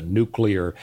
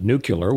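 First: Said in the usual way. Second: "nuclear" with the last syllables swapped to "kyuh-lur"; mispronounced nuclear. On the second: Retold or imitated. Teasing Jimmy Carter's way of saying it, "nuclear" said as NOO-kyuh-lur. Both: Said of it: "He, he called it nuclear".

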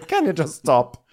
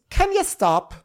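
First: Raised-pitch exasperated plea, less squeaky; lightly acted fed-up mother; mock annoyance. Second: Very high-pitched exasperated plea; mock annoyance. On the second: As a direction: squeal it like a fed-up mother. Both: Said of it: "gets annoyed and goes".

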